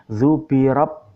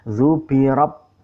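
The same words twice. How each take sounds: Both takes have the same delivery.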